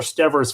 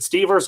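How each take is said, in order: First: "Stevers" with a short e, STEV-ers; alternative pronunciation guess. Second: "Stevers" with a long ee, STEE-vers; first pronunciation guess. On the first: Host offers another surname reading, "Stevers" said STEV-ers. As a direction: say "Stevers" to rhyme with nevers. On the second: Host checks a viewer's surname, "Stevers" said STEE-vers. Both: Shown as a demonstration. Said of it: "if I've butchered the pronunciation".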